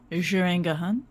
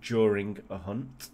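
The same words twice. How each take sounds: First: Mocking French accent. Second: French accent. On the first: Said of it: "you went all French there". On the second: Shown as a demonstration. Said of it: "It sounded like you said during a hunt".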